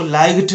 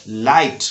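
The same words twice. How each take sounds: First: लाइट wrongly said as "laig-t"; GH sounded. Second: लाइट as "lait", no G; silent GH. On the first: Teacher warning students, GH voiced as G in लाइट. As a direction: put a hard G before the T in लाइट. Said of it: "लाइट नहीं पढ़ना है". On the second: Teacher giving the right reading, GH silent in लाइट. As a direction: go from vowel straight to T in लाइट. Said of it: "इसको पढ़ना है लाइट". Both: Shown as a demonstration.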